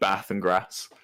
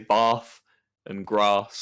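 First: It is said in a non-RP accent. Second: It is said in received pronunciation.

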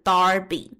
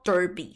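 First: The first vowel sounds like 'ar'. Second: The first vowel sounds like 'er'. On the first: The speaker calls it wrong. "很多人会念成Darby" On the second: The speaker calls it right. "我一看我就觉得大概就是Derby"

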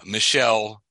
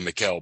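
First: The name is given a French pronunciation. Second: The name is given a non-French pronunciation. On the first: The speaker calls it right. "is the way they pronounce it" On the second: The speaker calls it wrong. "I would say Michel"

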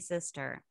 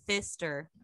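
First: The word starts with a clear s sound. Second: The word starts with a lisped th sound. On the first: This is how the word is normally said. "my brother and his friends all call me sister" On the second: The people saying it are drunk. "And if they're drunk, they say thister"

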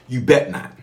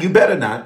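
First: The word 'better' is shortened to 'bet'. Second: The word 'better' is said in full. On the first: The speaker calls it right. "In the South, you bet not" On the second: The speaker calls it wrong. "Not you better not. ... That ain't how you say it in the South"

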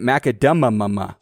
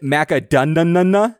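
First: The middle consonant is an M sound. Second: The middle consonant is an N sound. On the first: The speaker calls it right. "like an M" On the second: The speaker calls it wrong. "like an N"

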